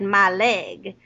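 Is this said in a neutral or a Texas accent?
Texas. It is said in a Texas accent.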